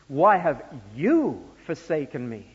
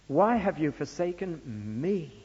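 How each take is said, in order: First: The stress falls on the word you. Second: The stress falls on the word me.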